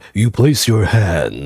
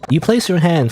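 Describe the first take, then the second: First: It is said in a very low voice. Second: It is said in a middle-pitched voice.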